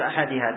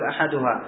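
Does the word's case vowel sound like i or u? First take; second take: i vowel; u vowel. First: The case vowel is an i vowel. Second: The case vowel is a u vowel. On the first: The speaker calls it wrong. "ما تقول أحدها" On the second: The speaker calls it right. "تقول أحدها"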